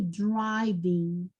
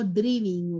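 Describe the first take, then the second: First: It sounds like a natural English pronunciation. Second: It sounds like a Spanish-style reading of the word. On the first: The speaker calls it right. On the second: The speaker calls it wrong.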